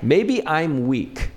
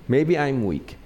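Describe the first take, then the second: First: Drawn out slowly, each word weighted; slow, deliberate admission of weakness; slow emphatic. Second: Said in the usual way. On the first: Shown as a demonstration. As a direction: let "Maybe I'm weak" sink in slowly.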